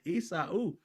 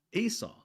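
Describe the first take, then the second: First: Esau said as ee-sow, rising in disbelief; pastor's mispronunciation. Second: Esau said properly, ee-saw, falling; correct pronunciation. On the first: Retold or imitated. Kid echoing the pastor's mangled name, ee-sow, incredulous. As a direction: repeat the wrong Esau incredulously. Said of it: "I said". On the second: Shown as a demonstration. Kid giving his real middle name Esau, ee-saw, firm. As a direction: state your own name Esau firmly. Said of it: "My middle name is that twin brother's name".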